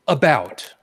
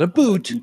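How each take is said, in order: First: The vowel sounds like 'out', as in shout. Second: The vowel sounds like 'oot', as in boot. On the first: The speaker calls it right. "I pronounce it about" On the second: The speaker calls it wrong. "not a boot"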